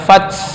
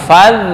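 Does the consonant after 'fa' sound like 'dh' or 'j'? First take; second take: j; dh. First: The consonant after 'fa' sounds like 'j'. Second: The consonant after 'fa' sounds like 'dh'. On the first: The speaker calls it wrong. "bukan faj" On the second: The speaker calls it right. "tapi fad"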